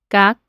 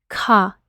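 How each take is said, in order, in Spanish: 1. La K se dice sin un soplo de aire. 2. La K se dice con un soplo de aire. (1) "en el español decimos" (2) "en el inglés es K"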